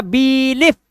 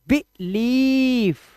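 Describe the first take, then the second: First: बिलीफ as "beee-lif", high; rejected बिलीफ with long bee, short lif; wrong pronunciation. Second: बिलीफ as short "bi", then long "leeef". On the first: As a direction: stretch the first vowel of बिलीफ, cut the second short. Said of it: "ऐसे नहीं पढ़ना". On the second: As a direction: hold the second vowel of बिलीफ very long. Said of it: "ई लंबा लेना". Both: Shown as a demonstration.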